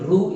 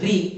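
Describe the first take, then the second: First: The vowel after r sounds like 'oo'. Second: The vowel after r sounds like 'ee'. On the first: The speaker calls it wrong. "रू यह उच्चारण गलत है" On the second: The speaker calls it right. "इसका उच्चारण री"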